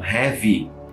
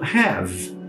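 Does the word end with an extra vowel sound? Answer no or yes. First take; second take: yes; no. First: An extra vowel sound is said after the final V. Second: The word ends on the V sound. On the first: The speaker calls it wrong. "muitas pessoas falam have" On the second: The speaker calls it right. "o som dela não termina no E, ele termina antes"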